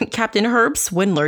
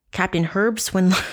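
First: "Captain Herb Swindler" said through a laugh, a bit higher. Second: Said in the usual way. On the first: Real, not acted. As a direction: chuckle as you repeat "Captain Herb Swindler". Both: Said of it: "he sounds like a fucking sea captain".

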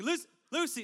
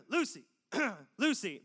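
First: Higher, louder call of the name. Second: Casual, lower-pitched call of a name. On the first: Retold or imitated. Dad calling louder for his daughter at the park, higher and louder. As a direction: call Lucy higher to get her attention. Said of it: "And I'm like". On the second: Shown as a demonstration. Calling his daughter in the park, low and casual. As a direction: call Lucy low and easy so no one panics. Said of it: "you gotta go lower".

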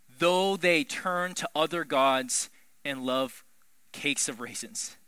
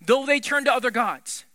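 First: Slow, measured reading of the verse; "Though they turn to other gods" read slow and even. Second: "Though they turn to other gods" louder and higher, pressed hard; "Though they turn to other gods" punched loud and high; emphatic. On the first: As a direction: read it out slowly and plainly. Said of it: "reads the verse slowly". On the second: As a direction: hit the phrase with amazement. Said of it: "this phrase is absolutely insane". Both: Shown as a demonstration.

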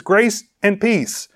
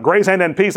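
First: "grace and peace" said slowly, each word set apart; correct reading. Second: "Grace and, and peace" with the "and" doubled, as a mock copying slip; wrong reading. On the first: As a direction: spell out "grace and peace" slowly and clearly, one "and" only. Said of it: "he copied the same word twice". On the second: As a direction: read it with the doubled "and" on purpose. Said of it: "that's ridiculous". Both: Shown as a demonstration.

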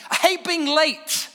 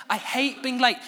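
First: "hate" punched higher and louder, slowly; "I hate being late" drawn out with big stress on "hate"; emphatic stress on hate. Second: Said in the usual way. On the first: Shown as a demonstration. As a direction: spit out "hate" slowly and loudly.

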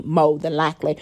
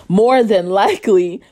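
First: "more than likely" with the R dropped, low; relaxed "mo than likely" in "more than likely"; dropped-R pronunciation. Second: Emphatic, fully pronounced "more than likely"; full enunciation. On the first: Repeats phrase, changing pronunciation. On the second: Restates the phrase with full sounds. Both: Shown as a demonstration.

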